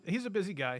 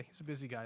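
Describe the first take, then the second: First: Said in the usual way. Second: Much softer, under the breath; quiet aside. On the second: Real, not acted. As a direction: repeat it to yourself, softly. Repeats line, second muttered.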